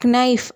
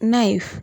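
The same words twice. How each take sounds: First: The word begins with a k sound. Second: The word begins with an n sound. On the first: The speaker calls it wrong. "நைஃப் அப்படி சொல்ல மாட்டோம்" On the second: The speaker calls it right. "கேல கே வந்து சைலண்டில் போயிடும்"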